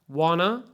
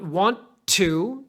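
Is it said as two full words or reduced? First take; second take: reduced; full. First: It is reduced and run together quickly. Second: Both words are said fully and separately. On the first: "it sounds like wanna" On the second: "Not want to"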